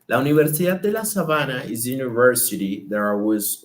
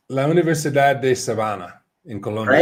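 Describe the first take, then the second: First: "La Universidad de La Sabana" with native Spanish vowels and a tapped r. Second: Spanish name said with a gringo accent; anglicized Spanish, American vowels. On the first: Shown as a demonstration. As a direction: say "Universidad de La Sabana" the Colombian way, crisp syllables. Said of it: "Say it". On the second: Real, not acted. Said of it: "I said that like a gringo".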